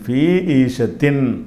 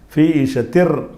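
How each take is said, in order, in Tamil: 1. இந்த சொற்றொடர் தெளிவான n ஒலியில் முடிகிறது. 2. இதற்கு பதிலாக இந்த சொற்றொடர் r ஒலியில் முடிகிறது. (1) "ஃபி ஈஷத்தின் என்று சொல்லாமல்" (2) "அந்த இன்ங்கிறது இர்ரா மாறிக்கிறோம்"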